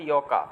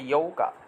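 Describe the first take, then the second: First: The middle 'u' sound is left out. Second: The middle 'u' sound is clearly pronounced. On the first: "এটা যদি আপনি বাদ দিতে চান তাহলে বলতে হবে ইয়কা" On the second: "আর যদি বাদ না দিতে চান তাহলে বলতে হবে ইয়ৌকা"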